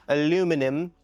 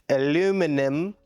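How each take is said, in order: Both takes have the same delivery.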